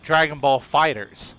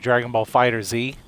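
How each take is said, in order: First: The name ends with a plain 's' sound. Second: The name ends with a separate 'zee' sound. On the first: The speaker calls it right. "It's called Dragon Ball Fighters" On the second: The speaker calls it wrong. "I even said it wrong"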